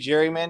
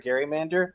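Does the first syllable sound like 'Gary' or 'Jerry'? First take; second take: Jerry; Gary. First: The word begins with a soft 'j' sound. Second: The word begins with a hard 'g' sound. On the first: This is the usual modern pronunciation. "should it be gerrymander or Garymander?" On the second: This follows the original namesake's pronunciation. "it's definitely pronounced Gary from that perspective"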